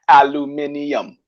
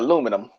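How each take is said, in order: First: It is said the British way, five syllables. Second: It is said the American way, four syllables.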